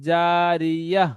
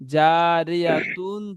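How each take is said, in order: First: The word ends in a soft, stopped 'h'. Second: The word ends with a full 'tun' syllable. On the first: The reading stops at the end of the verse. "গোল তাকে বাদ দিয়ে হা সাকিন করে পড়তে হয়" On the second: The word is read without stopping. "জারিয়াতুন রয়েছে"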